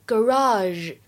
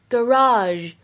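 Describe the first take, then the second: First: It is said with an American pronunciation. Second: The same.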